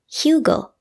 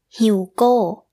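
First: The final syllable is not stressed. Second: The final syllable is stressed with a falling tone.

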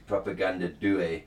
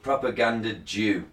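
First: Due is said as the Italian word. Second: Due sounds like the English word Jew. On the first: The speaker calls it right. "it's actually Propaganda Due. The Italian word for two" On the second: The speaker calls it wrong.

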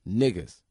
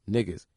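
Both takes have the same delivery.

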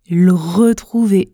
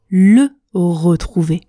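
First: The two words are run together, dropping the vowel. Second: Each syllable of both words is said in full. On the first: "Je contracte ces deux mots quand je parle vite" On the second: "Je ne prononce pas le retrouver"

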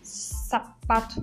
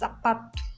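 First: The first consonant has a hissing sound. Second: The first consonant has no hissing sound. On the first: The speaker calls it wrong. "Não tem um chiado, viu? Tipo, sapato, não" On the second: The speaker calls it right. "Zapato mesmo"

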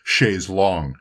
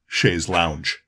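First: The second word sounds like 'long'. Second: The second word sounds like 'lounge'. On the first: The speaker calls it right. "the proper pronunciation is chaise longue" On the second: The speaker calls it wrong. "and not chaise lounge"

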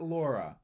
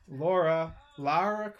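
First: The name is said as Laura. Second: The name is said as Lara. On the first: The speaker calls it wrong. "not Laura" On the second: The speaker calls it right. "Lara Croft, not Laura"

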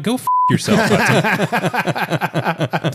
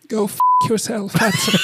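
First: It is said in his normal voice. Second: It is said in a Cheshire Cat voice.

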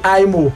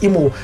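First: The name is said the American way. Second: The name is said the Nigerian way. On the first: "How will Americans pronounce it? They'll probably say Imo" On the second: "The state Imo"

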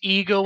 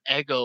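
First: The word does not sound like Eggo. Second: The word sounds like the waffle Eggo. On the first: The speaker calls it right. "it is Ego" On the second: The speaker calls it wrong. "not Ego. A lot of people say Ego, and it kills me. Not the waffle"

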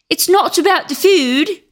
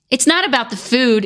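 First: It is said in a put-on British accent. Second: It is said in the speaker's ordinary accent.

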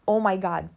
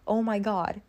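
First: It is said with a Romanian accent. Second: It is said with a formal accent. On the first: "if I use my Romanian accent, it's like" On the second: "But if I say my formal accent, it is"

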